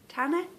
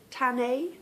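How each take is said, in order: First: "Tanne" as TAN-uh, questioning; unsure second guess. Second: "Tanne" said as TAN-ay, ending on "ay", rising like a question; unsure first guess. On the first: Podcaster's second guess at a viewer's Ravelry name, "Tanne" as TAN-uh. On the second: Podcaster guessing a viewer's Ravelry name, "Tanne" as TAN-ay. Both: Shown as a demonstration. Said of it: "I don't know how to say this one either".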